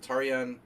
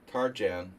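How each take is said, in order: First: The name is pronounced with Hungarian sounds. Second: The name is pronounced with American English sounds.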